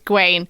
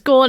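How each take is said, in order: First: The name is said as two syllables, 'ga-wain'. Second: The name is said as one syllable, 'gorn'. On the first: The speaker calls it right. "it's Gawain" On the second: The speaker calls it wrong. "I pronounce it as Gorn"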